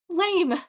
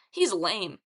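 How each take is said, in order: First: High, loud enthusiastic echo. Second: Dismissive taunt. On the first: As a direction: yell it back with gleeful enthusiasm. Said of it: "Echo said with enthusiasm". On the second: Leo taunts Narcissus. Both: A narrator's reading.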